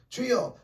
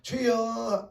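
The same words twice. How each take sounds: First: The word is said short and quick. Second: The word is drawn out long.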